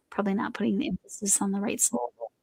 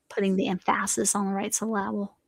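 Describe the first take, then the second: First: Said in the usual way. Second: Emphasis as em-FASS-is and syllable as suh-LAB-ul; deliberately wrong beat, em-FASS-is on the right suh-LAB-ul; joking misplaced stress. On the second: Shown as a demonstration.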